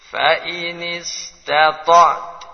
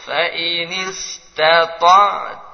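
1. Frasa itu berakhir pada konsonan tanpa vokal. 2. Frasa itu berakhir dengan vokal pendek. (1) "Kita bikin berhenti" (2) "Kalau terus"

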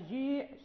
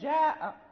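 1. الصوت الطويل مائل نحو صوت 'ee'. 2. الصوت الطويل هو 'aa' مفتوح.

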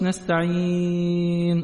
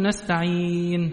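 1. تُمَدّ الحركة الطويلة أربع حركات. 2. تُمَدّ الحركة الطويلة حركتين. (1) "التوسط نستعين 4" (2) "السكون المحض هتقول نستعين حركتين"

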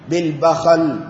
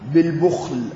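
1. تُنطق bakhal، بفتحتين. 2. تُنطق bukhl، بالضمة ولا حركة ثانية.

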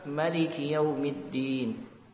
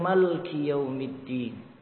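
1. Vokal pertama pada maliki dipendekkan. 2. Vokal setelah huruf l dihilangkan sepenuhnya. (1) "pakar qiraah yang lain membaca maliki يوم الدين" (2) "disukunkan lam malki"

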